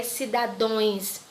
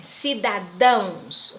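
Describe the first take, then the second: First: "cidadões" ending in a nasal -ões; wrong plural ending. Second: "cidadãos" drawn out slowly, ending in -ãos; slow, careful "cidadãos" with a nasal -ãos; correct plural ending. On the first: Teacher quoting a common plural error, "cidadões" with -ões. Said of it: "vejo pessoas errando". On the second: Teacher correcting a common error, slow "cidadãos" ending in -ãos. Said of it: "não é cidadões". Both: Shown as a demonstration.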